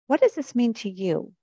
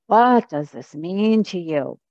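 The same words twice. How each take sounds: First: It is said in a sincere, curious tone. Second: It is said in a defiant, challenging tone. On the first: The asker genuinely wants to understand. "I want to understand" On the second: The asker dismisses the ritual as pointless. "you could read the question defiantly"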